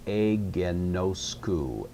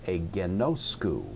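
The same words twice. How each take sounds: First: Agenosku drawn out slowly, syllable by syllable with level stress; evenly stressed syllables. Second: Agenosku with the accent on the next-to-last syllable, NOS; stress on the penult. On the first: Teacher showing students a word not yet accented, agenosku in slow, even syllables. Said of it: "I'm wondering how to accent it". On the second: Teacher giving the worked-out correct accent, agenosku stressed on NOS. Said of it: "the correct accent for this word will be". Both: Shown as a demonstration.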